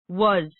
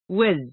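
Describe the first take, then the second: First: The word has a full, clear vowel. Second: The word has a reduced, weak vowel.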